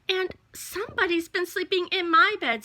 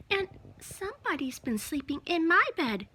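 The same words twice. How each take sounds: First: Higher mama bear voice; medium-sized Mama Bear voice. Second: High little bear cub voice; Baby Bear's cry. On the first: Mama Bear finding her bed slept in, in a medium-sized voice. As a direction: exclaim as a mother bear, pitched up. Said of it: "said Mama Bear in her medium-sized voice". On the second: Baby Bear crying over his bed, in a small high voice. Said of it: "cried Baby Bear". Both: A narrator's reading.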